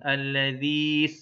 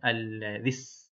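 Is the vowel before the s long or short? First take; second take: long; short. First: The vowel before the s is drawn out long. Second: The vowel before the s is short. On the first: The speaker calls it wrong. "bukan begitu ... kadang-kadang suka dipanjangkan" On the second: The speaker calls it right. "Jadi bacanya alladzis"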